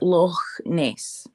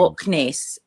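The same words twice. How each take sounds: First: Loch ends with a throaty ch sound. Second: Loch ends with a hard k sound. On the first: The speaker calls it right. "we pronounce the ch differently" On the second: The speaker calls it wrong. "It's not"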